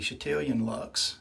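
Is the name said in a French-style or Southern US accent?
Southern US. It is said in a Southern US accent. "from somebody from Northwest Alabama who lives in West Tennessee, it would just be"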